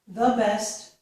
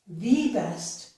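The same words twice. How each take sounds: First: The word 'the' is said with a short 'uh' vowel. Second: The word 'the' is said with a long 'ee' vowel. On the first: Nothing is being emphasized. "normally without stressing anything, I would use a" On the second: The idea is being emphasized. "if I want to stress my ideas, then I would use E"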